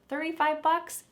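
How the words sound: It sounds shocked and indignant. The price is far too high. "That's outrageous. That's so much money"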